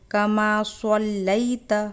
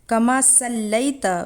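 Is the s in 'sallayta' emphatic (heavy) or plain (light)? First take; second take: emphatic; plain. First: The s in sallayta is a heavy, emphatic s. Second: The s in sallayta is a plain, light s. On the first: The speaker calls it right. "बल्कि कमा सल्लैत पढ़ा जाएगा" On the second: The speaker calls it wrong. "भी नहीं है"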